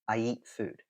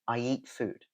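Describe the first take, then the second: No difference in how they are said.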